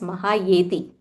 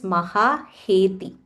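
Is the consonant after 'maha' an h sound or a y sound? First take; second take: y sound; h sound. First: The consonant after 'maha' is a y sound. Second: The consonant after 'maha' is an h sound. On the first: The speaker calls it wrong. "I learned it as Mahayeti" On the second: The speaker calls it right. "the correct pronunciation is Mahaheti"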